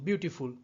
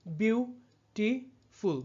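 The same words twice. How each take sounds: First: Said in the usual way. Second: "beautiful" very slowly as বিউ, টি, ফুল; long pause after each syllable of "beautiful"; split into syllables. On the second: Shown as a demonstration. Teacher counting three syllables, "beautiful" broken into slow separate beats. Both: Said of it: "বিউটিফুলও রয়েছে তিনটি syllable".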